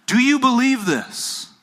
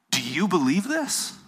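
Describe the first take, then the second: First: "Do you believe this" pitched high and loud, falling on "this"; hard question. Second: Gentle rising question on "this". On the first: Jesus putting the hard question to Martha, insistent. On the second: Jesus asking Martha about her belief, questioning. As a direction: ask "Do you believe this?" higher, lifting at the end. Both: Retold or imitated. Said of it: "He asked her the hard question".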